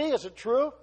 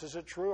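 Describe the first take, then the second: First: Higher, louder rising question; loud rhetorical question. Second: Said in the usual way. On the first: Acted. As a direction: push the question out to the room. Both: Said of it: "asks the church".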